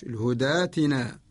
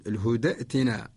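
First: الهدى ائتنا as hudaatina, long aa; Warsh reading. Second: الهدى ائتنا as huda'tina, with a glottal stop; short a in الهدى, then catch the hamza of ائتنا; lower-pitched demo of ائتنا with its still hamza; original hamza form. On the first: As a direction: turn the hamza of ائتنا into a long alif. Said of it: "نقرأ لورش". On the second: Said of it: "الأصل". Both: Shown as a demonstration.

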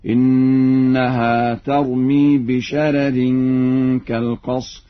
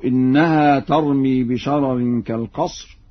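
First: بشرر with a thin first r, "bisharerin"; slow recitation, first r of بشرر light, not heavy. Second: Said in the usual way. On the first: Shown as a demonstration. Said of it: "يقرأ ورش بترقيق الراء الأولى هكذا". (بشرر بترقيق الراء الأولى) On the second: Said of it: "بترقيق الراء الأولى".

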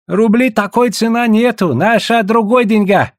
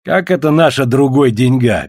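First: Protesting. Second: Mocking echo of the trader; mimicking. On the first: Trader refusing to price in roubles, protesting. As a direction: object in a high, insistent voice. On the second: Russian teasing the trader's speech, mimicking. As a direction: throw his words back at him teasingly. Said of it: "передразнил Бердышев". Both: A narrator's reading.

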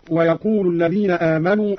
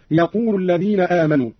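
First: Said in the usual way. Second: يقول with u on the ل, no leading و; dropped waw. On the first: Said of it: "قرأ قالون بحذف الواو". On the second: Shown as a demonstration. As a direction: begin straight on "yaqulu", no "wa". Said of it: "بحذف الواو ورفع اللام أيضًا هكذا".

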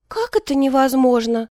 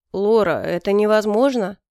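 First: Put-on high, girlish protest; dismayed babble. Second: Understated firm refusal, falling at the end. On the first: Favourite babbles back at the emperor's refusal, dismayed. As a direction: question it in helpless disbelief, pitched up. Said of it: "пролепетала она". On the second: Emperor turns down his favourite's plea, mildly firm. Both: A narrator's reading.

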